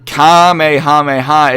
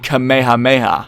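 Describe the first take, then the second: First: The word is yelled loudly and forcefully. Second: The word is said calmly at normal volume. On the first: It is shouted as an attack. "is the way that they yell it" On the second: It refers to the attack in a non-aggressive mode. "a singular tone, they say Kamehameha"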